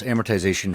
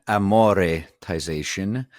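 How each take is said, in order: First: Said in the usual way. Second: Amoretization with Italian "amore" inside it; Italianised pronunciation. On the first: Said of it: "Amortization from the Italian". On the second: Shown as a demonstration. Joke word origin for co-host, amoretization said as Italian amore-tization. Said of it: "from the Italian amoretization".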